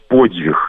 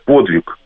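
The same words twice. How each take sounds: First: It is said with a soft Belarusian dz sound. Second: It is said with a plain Russian pronunciation.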